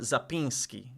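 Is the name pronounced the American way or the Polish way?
Polish. The name is said with a Polish pronunciation. "Americanized some from Zapinski"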